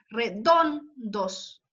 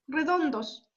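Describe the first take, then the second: First: "Redondos" spoken very slowly with the weight on "don"; stressed syllable drawn out. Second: Said in the usual way. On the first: Shown as a demonstration. Teacher slowly showing the class that "Redondos" is stressed on "don". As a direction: stretch out "Redondos" and lean on "don". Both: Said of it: "La carga de voz está en don".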